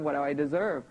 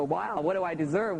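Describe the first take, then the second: First: "deserve" dropping, musing to itself; falling repeat. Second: "deserve" rising, higher, puzzled; the mind asks "what do I deserve?" with a lift on "deserve"; mock bewildered. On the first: Retold or imitated. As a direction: settle down onto "deserve". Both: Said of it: "the computer banks go".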